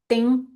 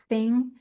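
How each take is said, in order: First: The word starts with a hard d sound. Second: The word starts with a soft breathy th. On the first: The speaker calls it wrong. "try to replace that sound with a D" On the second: The speaker calls it right. "the th with the with the breath"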